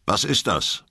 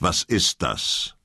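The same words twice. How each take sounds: First: Said in the usual way. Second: "Was ist das?" slow, each word weighed, stress on "ist"; slow stern repeat. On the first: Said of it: "Ich scherze nicht. Was ist das?". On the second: Acted. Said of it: "Ich scherze nicht".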